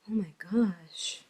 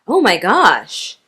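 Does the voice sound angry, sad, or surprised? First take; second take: sad; surprised. First: It is said in a sad tone. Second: It is said in a surprised tone. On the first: The speaker feels sorrow about something. "if we're sad" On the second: The speaker did not expect something. "if we're surprised"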